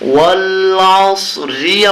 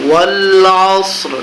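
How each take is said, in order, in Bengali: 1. r-এর পরে একটি অতিরিক্ত i স্বরধ্বনি আছে। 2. শব্দটি কোনো স্বরধ্বনি ছাড়াই r দিয়ে শেষ হয়। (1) "ওয়াল আস রি আবার বলা যাবে না" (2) "উচ্চারণ করতে হবে ওয়াল আসর, এরকম করতে হবে"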